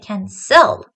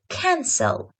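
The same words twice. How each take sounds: First: The stress is on the second syllable. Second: The stress is on the first syllable. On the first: The speaker calls it wrong. "I don't say cancel" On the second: The speaker calls it right. "The same rule happens for the word cancel"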